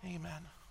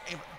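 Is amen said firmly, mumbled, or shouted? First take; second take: mumbled; shouted. First: It is mumbled quietly and unclearly. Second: It is shouted very loudly.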